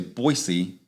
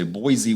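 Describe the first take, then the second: First: The middle consonant is an S sound. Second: The middle consonant is a Z sound. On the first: The speaker is a local. The speaker calls it right. "if you say Boise, you're from there" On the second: The speaker is not a local. The speaker calls it wrong. "If you say Boise with a Z"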